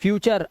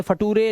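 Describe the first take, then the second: First: Said in the usual way. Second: Future misread as "फटूरे", fa-TOO-ray; letter-by-letter misreading "फटूरे"; wrong spelling pronunciation. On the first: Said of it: "अर से पढ़ना है". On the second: Shown as a demonstration. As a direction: sound out "फटूरे" with a hard T and final "ay". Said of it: "ऐसा नहीं पढ़ना है".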